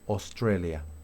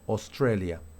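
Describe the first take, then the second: Both takes have the same delivery.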